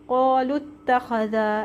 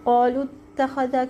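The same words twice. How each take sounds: First: The long vowel drops, joining straight to the next word. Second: The long vowel is kept before the next word. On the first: The speaker calls it right. "लाम को डायरेक्ट ता से जोड़ देंगे और वाव को नहीं पढ़ेंगे" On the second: The speaker calls it wrong. "क्यों नहीं पढ़ेंगे"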